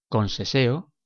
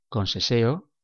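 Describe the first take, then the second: Both takes have the same delivery.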